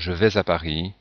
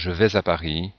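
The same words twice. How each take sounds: First: Vais and à are joined by a linking z. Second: Vais and à are joined by a linking z.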